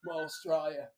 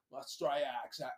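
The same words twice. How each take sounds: First: Said in the usual way. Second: "Australia" said with an Australian "eye" vowel; Australian-accented "Australia". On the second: Shown as a demonstration. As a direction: put an Aussie twang on "Australia". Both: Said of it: "I was doing my Australian accent".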